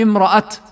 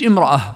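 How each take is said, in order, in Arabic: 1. تنتهي الكلمة بتاء صامتة. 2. تنتهي الكلمة بصوت الهاء. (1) "نقف عليها امرأة لأن التاء مفتوحة" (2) "يعني مش امرأة"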